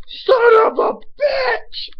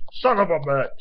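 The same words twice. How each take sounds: First: Drawn-out, high, full-force scream; retold yell. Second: Sharp, loud burst of frustration; angry curse. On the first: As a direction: re-enact the outburst at the top of your voice. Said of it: "I jumped up and I yelled". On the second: Real, not acted. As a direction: curse out loud as pain and annoyance hit. Blood drips down his throat.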